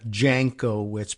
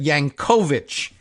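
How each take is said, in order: First: The name begins with a J sound. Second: The name begins with a Y sound. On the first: The speaker calls it wrong. "not not Jankowitz" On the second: The speaker calls it right. "but Yank, right? ... Yankovic is how it would be pronounced in Polish"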